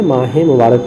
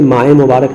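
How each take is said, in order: First: ماہ مبارک read as maah-e mubarak, a short e after ماہ linking it to مبارک; correct izafat reading. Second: ماہ مبارک read as plain maah mubarak, no linking e sound after ماہ; wrong reading. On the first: Teacher shows students the right reading of ماہ مبارک with the linking e. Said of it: "پڑھیں گے". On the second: Teacher shows students the wrong way to read ماہ مبارک, no added e. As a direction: say ماہ مبارک run together as maah mubarak with nothing between the words. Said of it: "نہیں پڑھیں گے". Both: Shown as a demonstration.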